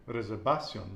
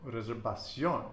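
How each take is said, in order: First: "reservación" wrongly stressed on "va"; wrong penultimate stress. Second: "Reservación" stressed on the last syllable "ción"; final-syllable stress. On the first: Teacher showing mistaken nose-rule reading, stress on "va" of "reservación". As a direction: punch "va" in "reservación", let "ción" fall. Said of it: "we would thought it would be". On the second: Teacher confirming student's answer, final stress on "Reservación". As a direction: land on the accented "ó" of "Reservación". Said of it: "accent over the O". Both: Shown as a demonstration.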